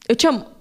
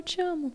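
First: It sounds anxious and tense. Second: It sounds calm and relaxed.

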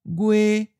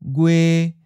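First: The pitch stays level at a high height. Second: The pitch stays level at a middle height. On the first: "it may sound like a high flat" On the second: "a mid flat"

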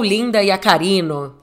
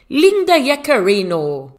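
First: The name is said in a Brazilian way. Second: The name is said in a non-Brazilian way.

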